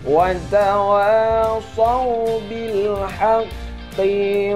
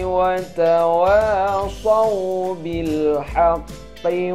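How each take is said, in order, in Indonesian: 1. Suku kata terakhir qi dipanjangkan. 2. Suku kata terakhir qi pendek. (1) "banyak yang membaca panjang qi-nya" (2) "qi itu tidak panjang"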